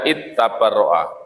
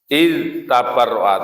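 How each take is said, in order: First: The d sound merges into the following t. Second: The d sound is pronounced clearly before the t. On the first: The speaker calls it wrong. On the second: The speaker calls it right. "dibaca id"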